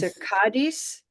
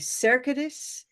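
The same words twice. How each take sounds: First: The stress is on the second syllable. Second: The stress is on the first syllable.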